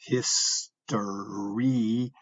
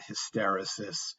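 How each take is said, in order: First: The third syllable is stressed with a long vowel. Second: The third syllable is unstressed with a short vowel. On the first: The speaker calls it right. "that's a long E, ... the emphasis is on that uh, syllable with the second E" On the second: The speaker calls it wrong. "It's not hysteresis"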